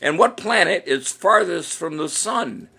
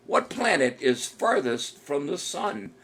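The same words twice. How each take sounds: First: Said in the usual way. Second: Drawn out, slowed-down question; slower repeat. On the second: Shown as a demonstration. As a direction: lay the question out slowly for the players.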